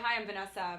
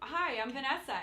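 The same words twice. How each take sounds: First: The voice stays level and even at the end. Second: The voice rises at the end, like a question. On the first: The speaker sounds confident and in authority. The speaker calls it right. "But now I can say" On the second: The speaker sounds unsure of herself. The speaker calls it wrong. "let's do a before and after"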